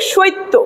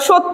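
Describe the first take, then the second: First: An 'i' glide comes before the consonant. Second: No extra 'i' glide comes before the consonant.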